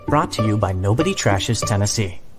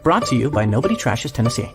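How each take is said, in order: First: The ending is said without rushing. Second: The ending is said in a rush.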